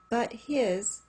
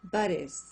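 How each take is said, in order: First: The h in 'his' is clearly pronounced. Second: The h in 'his' is dropped and linked.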